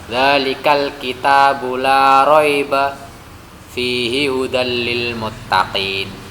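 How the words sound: There is a pause after raiba.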